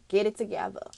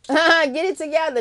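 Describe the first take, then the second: First: Said in the usual way. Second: Louder, higher pep-talk push; laugh, then urge them loudly; emphatic command. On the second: Real, not acted. Repeats the command more forcefully.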